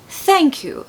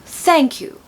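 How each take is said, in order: The two takes are said the same way.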